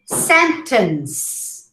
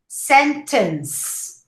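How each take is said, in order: First: It ends on the final s sound. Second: It ends on the final s sound.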